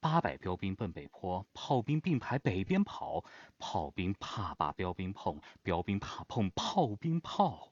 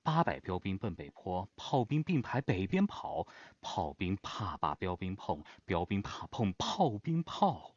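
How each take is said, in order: First: It is told like a story, with shifted stresses. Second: It is told like a story, with shifted stresses.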